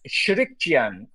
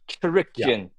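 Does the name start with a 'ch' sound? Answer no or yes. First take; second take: no; yes. First: The name does not start with 'ch'. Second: The name starts with a 'ch' sound. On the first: The speaker calls it wrong. "it's not right though" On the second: The speaker calls it right. "It's a ch"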